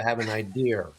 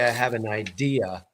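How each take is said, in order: First: It is said in a New York accent. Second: It is said in a neutral, non-regional accent. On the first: "the New York accent, ... They'll say" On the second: "they don't say"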